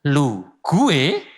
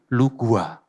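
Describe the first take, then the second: First: It is said with a thick Javanese accent. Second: It is said with a Jakarta-like accent. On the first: "medok guys" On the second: "agak diganti dikit biar nggak kelihatan medok"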